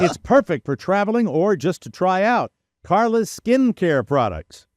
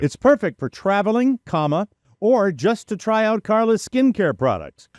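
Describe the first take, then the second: First: It runs on without a pause after traveling. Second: There is a pause after traveling. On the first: The speaker calls it wrong. "Let me say that sentence correctly" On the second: The speaker calls it right. "I'll say it the right, way"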